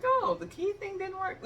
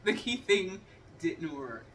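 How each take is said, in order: First: High, mocking imitation of the husband. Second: Slow, dry repeat of "the key thing didn't work"; flat deadpan retort. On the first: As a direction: tease him with his own line. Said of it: "he was like". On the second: Real, not acted. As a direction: hand his words back, deadpan. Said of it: "No, Jeff".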